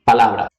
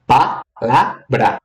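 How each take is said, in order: First: Said in the usual way. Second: "Palavra" said slowly, syllable by syllable: pa-la-vra; syllables split out. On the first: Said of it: "Temos três sílabas". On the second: Shown as a demonstration. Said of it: "quantas sílabas temos aqui?". ("Palavra" dita devagar, sílaba por sílaba)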